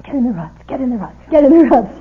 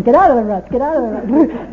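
First: Imitated shout, building to a loud final yell; mock shout. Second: Loud imitated yell, urgent; imitated shout. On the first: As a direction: echo the order, louder each time. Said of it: "Wes going". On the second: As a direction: shout it as the car scrapes. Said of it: "He's going".

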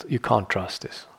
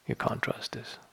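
First: Said in the usual way. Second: Breathed with no voice at all; whisper. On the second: Shown as a demonstration. Whispering a warning to the listener about a thought. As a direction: drop to a hush for the warning.

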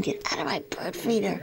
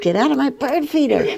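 First: Softer whispered replay of the shout. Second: Higher, louder shout at the squirrel; retold shout. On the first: Retold or imitated. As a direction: breathe "get out of my bird feeder" in a whisper. Recapping the squirrel shout quietly. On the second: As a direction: yell it to shoo the squirrel off. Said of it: "and I shouted at it".

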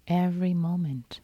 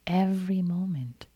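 The two takes are said the same way.

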